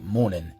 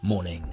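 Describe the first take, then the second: First: The final g sound is dropped. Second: The final g sound is fully pronounced. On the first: "the K is getting dropped. Similarly to how we might say morning" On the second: "instead of morning"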